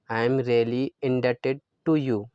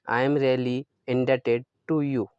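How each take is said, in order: Both takes have the same delivery.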